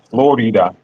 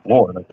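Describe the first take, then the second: First: It is pronounced with Spanish sounds. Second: It is pronounced with English sounds. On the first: The speaker calls it right. "it's Florida, right? ... that's not an American name" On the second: The speaker calls it wrong. "it's not Florida"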